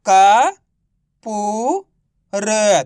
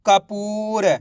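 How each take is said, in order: First: Syllable by syllable. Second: Kapoor run together, long middle पू; blended word. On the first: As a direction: sound out का, पू, र separately, each drawn out. (का, पू, र को अलग-अलग खींचकर) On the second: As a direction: say Kapoor joined up as one word. (Kapoor को मिलाकर एक शब्द में) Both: Shown as a demonstration. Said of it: "तो मिलके बन जाएगा".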